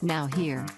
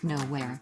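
First: It is said as two separate words. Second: It is said as one single word. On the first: It means present in this place. The speaker calls it right. "It's now here" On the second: It means in no place. The speaker calls it wrong. "not nowhere"

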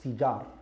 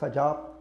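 First: The first vowel is an i sound. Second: The first vowel is an a sound. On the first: The speaker calls it right. "it's Fijar" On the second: The speaker calls it wrong. "not Fajar"

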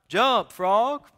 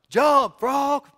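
First: It is said loudly, as a yell. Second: It is said very loudly, a bigger yell.

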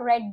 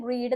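First: The vowel is short, as in red. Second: The vowel is long, as in reed. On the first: The speaker calls it right. "റെഡ് എന്നാണ് പറയേണ്ടത്" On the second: The speaker calls it wrong. "റീഡ് എന്നല്ല പറയേണ്ടത്"

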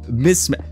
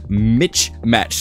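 First: The word is said smoothly at normal speed. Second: The word is said slowly, split like two words. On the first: The speaker calls it right. "You had it right the first time" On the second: The speaker calls it wrong. "You specifically slowed down"

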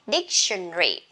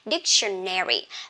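First: It is said in a British English accent. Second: It is said in an American English accent. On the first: "for British English, people love saying dictionary" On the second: "American English prefer saying dictionary"

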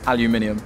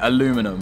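First: It is said with five syllables, British style. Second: It is said with four syllables, American style.

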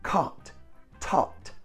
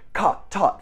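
First: The words are said at a normal pace. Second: The words are said at a very quick pace. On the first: "Now say them with me" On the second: "And now super fast"

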